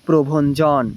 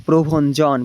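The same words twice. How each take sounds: Both takes have the same delivery.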